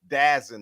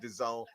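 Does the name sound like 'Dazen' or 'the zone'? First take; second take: Dazen; the zone. First: It is said as one word, 'Dazen'. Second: It is said like the words 'the zone'. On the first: The speaker calls it right. "It's Dazen or something like that" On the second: The speaker calls it wrong. "it ain't pronounced the zone"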